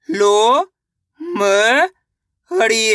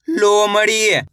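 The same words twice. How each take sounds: First: लो, म, हड़ी drawn out with gaps; syllable by syllable. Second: Said in the usual way. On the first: Shown as a demonstration. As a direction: sound out लो, म, हड़ी one at a time. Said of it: "एक अक्षर का उच्चारण सही से". (लो, म, हड़ी तोड़-तोड़कर) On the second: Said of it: "शब्द का उच्चारण सही से हो जाएगा".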